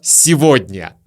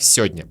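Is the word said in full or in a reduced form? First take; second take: full; reduced. First: The word is said in its full form. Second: The word is said in a reduced form. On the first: "И мы добрались до слова «сегодня»" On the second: "мы чаще всего произносим это слово как «сегодня»"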